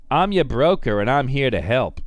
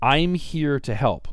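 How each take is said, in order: First: Smooth salesman pitch, louder; broker voice. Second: Slow, sugary sales reassurance; mock broker line. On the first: Retold or imitated. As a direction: play the slick friendly broker. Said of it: "I don't know why I have to give them that voice". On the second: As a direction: fake helpful salesman tone. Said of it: "Brokers are always saying".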